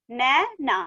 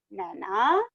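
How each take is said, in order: First: "नै... ना" with a gap, falling; syllable by syllable. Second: "Naina" blended, lower and rising; joined word. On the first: Teacher reading matra words to class, "नै - ना" split. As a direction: break "Naina" into two syllables. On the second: Teacher completing the word for class, "Naina" joined up. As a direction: run "Naina" together as one word. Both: Shown as a demonstration. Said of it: "इस तरह से read करेंगे".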